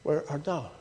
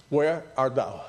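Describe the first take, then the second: First: Quieter, tender asking; soft gentle question. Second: Gentle question. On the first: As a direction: let it fall softly as a question. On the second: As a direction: ask it tenderly, like a caring father. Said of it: "what he says". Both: Retold or imitated.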